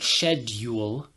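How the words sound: A 'y' glide comes before the 'oo' vowel. "British English includes a lot more of the y sound"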